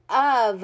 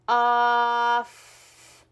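First: "of" said quickly as one whole word; fast way. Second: "Off" stretched out slowly, sound by sound; sounding out words. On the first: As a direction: read "of" at once, not sound by sound. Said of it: "How do we say the word?". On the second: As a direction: hold each sound of "Off" in one long breath. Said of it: "Sound it out again". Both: Shown as a demonstration.

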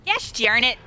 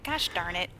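First: Exaggerated frustration. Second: Low, soft grumble; muttered frustration. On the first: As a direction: say it up and out, playfully annoyed. Repeats the mild curse more forcefully. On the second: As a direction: grumble it under your breath. Player frustrated as monster returns. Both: Real, not acted.

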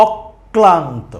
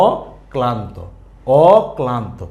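First: অক্লান্ত as অক-ক্লান্ত, slow; slow অক্লান্ত with the ক held double; doubled ক. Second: অক্লান্ত as a long open অ, then ক্লান্ত; single ক in অক্লান্ত, the first vowel left open; undoubled pronunciation. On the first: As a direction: close the first syllable of অক্লান্ত on ক, then release ক্লান্ত. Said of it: "উচ্চারণটা হচ্ছে". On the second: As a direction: split অক্লান্ত into অ, pause, ক্লান্ত. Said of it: "স্বাভাবিকভাবে উচ্চারণ করি". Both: Shown as a demonstration.

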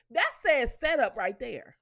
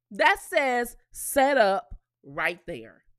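First: Said in the usual way. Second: Each word slow and louder, hitting "That"; slow emphatic repeat. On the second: Shown as a demonstration. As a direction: lay it down slowly and firmly, "That says setup". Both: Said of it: "repeats for emphasis".

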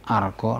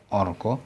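First: "argo" said "ar-gaw", opening on ah; "argo" with ah before the r. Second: "orgo" said "or-gaw", opening on rounded o; "orgo" with o before the r; wrong O vowel. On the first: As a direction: open the first vowel of "argo" to "ah". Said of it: "A followed by R is always pronounced". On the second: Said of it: "not orgo". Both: Shown as a demonstration.

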